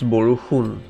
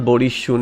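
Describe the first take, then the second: First: The middle of the word has a 'hu' sound. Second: The middle of the word has an 'sh' sound. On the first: The speaker calls it right. "it's Boruhun. And that who pronunciation is not available" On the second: The speaker calls it wrong. "it's not Borishun"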